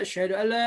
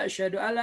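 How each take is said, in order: No difference in how they are said.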